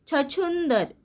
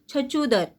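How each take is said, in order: First: The second vowel is said through the nose. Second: The second vowel is said plainly, without nasal sound. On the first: "कैसे बोलेंगे?" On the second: "चंद्र बिंदु की मात्रा नहीं रहती तो हम कैसे बोलते?"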